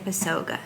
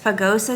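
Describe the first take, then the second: First: The s comes before the g. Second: The g comes before the s. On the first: The speaker calls it wrong. "I always want to say Pasoga" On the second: The speaker calls it right. "It's Pagosa Springs"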